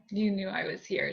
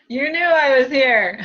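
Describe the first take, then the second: First: Said in the usual way. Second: Louder, slower, mock-accusing tease; playful teasing. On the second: Medium voicing the spirit sister's tease, louder and slower. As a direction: tease her like a sister caught peeking. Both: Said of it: "she says".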